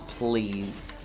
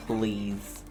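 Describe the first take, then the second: No difference in how they are said.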